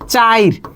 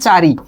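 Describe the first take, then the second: First: The i vowel comes before the r sound. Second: The i vowel comes after the r sound. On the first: "রয়ের আগে উচ্চারণ হচ্ছে রস্বইটা" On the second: "রয়ের পরে ইটা উচ্চারণ হচ্ছে"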